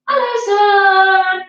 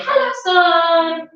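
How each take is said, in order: First: Slow, sing-song and a bit louder; louder hello. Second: Said in the usual way. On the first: Shown as a demonstration. Teacher calls to the sun louder for the kids, sing-song. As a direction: greet the sun brightly and louder. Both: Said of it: "can we say it a bit louder".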